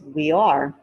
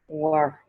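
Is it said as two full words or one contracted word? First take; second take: two words; contracted. First: It is said as two full words. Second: It is said as one contracted word. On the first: "which is also reduced" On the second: "reduced to were"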